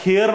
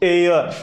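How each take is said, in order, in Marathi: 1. हा शब्द 'h' आवाजाने सुरू होतो. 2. हा शब्द स्वराच्या आवाजाने सुरू होतो. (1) "याचा उच्चार हेअर नाही होत" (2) "ह्याचा उच्चार होतो एअर"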